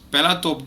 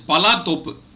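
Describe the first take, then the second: First: The name is read as it is spelled. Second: The name is said as two full words. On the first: The speaker calls it wrong. "if you try to pronounce this, it is actually Pelatop Days" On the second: The speaker calls it right. "but actually it is it is Pala Topu"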